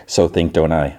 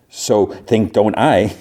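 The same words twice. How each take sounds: First: Said in the usual way. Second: Drawn out, deliberately paced; slow retold comeback. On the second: Driver fumbles his comeback to a rival, slow and deliberate. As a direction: stretch out the muddled retort slowly.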